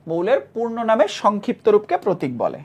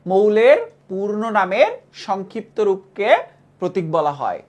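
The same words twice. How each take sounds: First: Said in the usual way. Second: Slow, deliberate dictation pace. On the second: Shown as a demonstration. Teacher dictates the definition slowly for students to memorize. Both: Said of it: "মুখস্থ করো".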